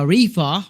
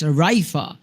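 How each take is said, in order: First: The first vowel sounds like 'ee'. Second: The first vowel sounds like 'eye'. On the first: The speaker calls it wrong. "I was pronouncing it as uh, Rifa, but no" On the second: The speaker calls it right. "it's Raifa"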